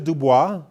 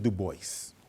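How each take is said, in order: First: The name is pronounced the French way. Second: The name is pronounced a non-French way. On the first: "In French it's Dubois" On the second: "he pronounced it Du Bois"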